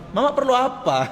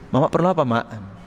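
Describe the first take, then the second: First: It sounds arrogant and disrespectful. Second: It sounds humble and respectful.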